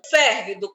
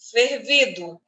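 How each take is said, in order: First: The stress is on the first syllable. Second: The stress is on the second syllable. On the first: Something hot. "proparoxítona" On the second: Something that was boiled. "é o particípio de ferver"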